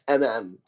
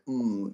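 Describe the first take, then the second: First: It is said as two separate letter names. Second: It is said as one continuous hum. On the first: The speaker calls it right. "a more appropriate way of pronouncing it" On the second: The speaker calls it wrong. "if you connect the two M's"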